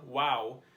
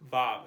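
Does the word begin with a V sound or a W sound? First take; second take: W sound; V sound. First: The word begins with a W sound. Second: The word begins with a V sound. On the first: This is the ancient pronunciation. "pronounce it wow with a W noise" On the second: This is the modern pronunciation. "It makes a V V noise like our English letter V. But that is the modern pronunciation"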